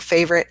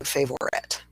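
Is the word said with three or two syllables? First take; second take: two; three. First: The word is said with two syllables. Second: The word is said with three syllables. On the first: "two syllable word favorite" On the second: "as opposed to saying favorite"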